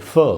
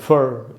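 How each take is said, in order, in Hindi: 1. शब्द स्वर पर खत्म होता है, उसमें आर नहीं है। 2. शब्द के अंत में सुनाई देने वाली आर की ध्वनि है। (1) "ब्रिटिश इंग्लिश में इस तरह को नहीं पढ़ेंगे" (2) "अमेरिकन में पढ़ेंगे फर"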